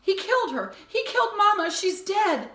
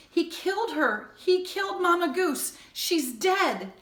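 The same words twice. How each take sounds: First: Much higher and louder, near screaming; desperate shrieking cry; frantic shout. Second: High, loud outraged cry; anguished yelling; boy's shout. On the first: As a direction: scream it at his dad. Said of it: "shouted it all again". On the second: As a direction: shout out the horror. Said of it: "The words erupted from Jonathan in a shout". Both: A narrator's reading.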